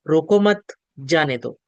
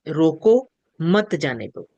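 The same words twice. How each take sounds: First: There is a pause right after 'mat'. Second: There is a pause right after 'roko'. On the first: Do not stop them; let them go. "उसका अल्प विराम उठाकर उन्हीं शब्दों में हमने बोला" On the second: Stop them; do not let them go. "रोको के बाद एक अल्प विराम"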